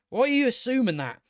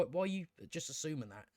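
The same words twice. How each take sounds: First: Exasperated demand. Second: Quick, much softer, half to yourself; muttered question. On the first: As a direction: demand an answer, fed up. Questioning the character, repeated. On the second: Reviewer mutters at the character, soft and quick. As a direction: mutter it fast under your breath. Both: Real, not acted.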